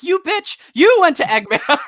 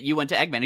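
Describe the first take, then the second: First: High, loud hammed-up retort; mock outraged shout. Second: Lightly acted scolding, slightly raised; mild accusation. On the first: Dimitri throws blame back at Leonda, mock outraged shout. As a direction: fire the blame back in a squealing mock yell. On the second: Leonda blames Dimitri for it, mildly accusing. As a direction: put mock blame on them.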